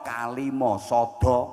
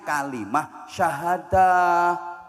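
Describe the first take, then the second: First: It is said with Javanese pronunciation. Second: It is said with Arabic pronunciation. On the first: The speaker calls it wrong. "repot karo wong Jawa diunekno" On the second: The speaker calls it right.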